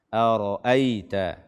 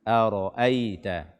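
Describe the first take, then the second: No difference in how they are said.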